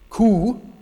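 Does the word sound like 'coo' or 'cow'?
coo. The vowel is a pure 'oo' sound. This is a traditional northern pronunciation. "For a true northerner, it would be ku"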